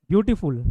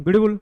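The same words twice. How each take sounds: First: beautiful said clearly in separate beats, beauty-full; split into beats. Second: beautiful squashed into one slurred beat; run-together demo. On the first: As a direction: give beautiful a small break before फुल. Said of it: "ऐसे बोलते कि नहीं". (Beautiful रुक-रुक कर, साफ़ हिस्सों में) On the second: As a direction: cram beautiful into a single go, blurring the middle. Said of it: "ऐसे थोड़ी ना बोलूँगा". (ब्यूटीफुल एक झटके में, बिना रुके) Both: Shown as a demonstration.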